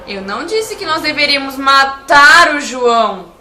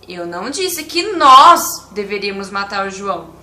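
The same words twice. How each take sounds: First: The word 'matar' is stressed. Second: The word 'nós' is stressed. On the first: Something other than killing was meant. "Se eu enfatizar a palavra matar" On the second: Other people were supposed to do it. "Se eu enfatizar a, a palavra nós"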